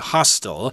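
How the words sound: It is said with an American pronunciation.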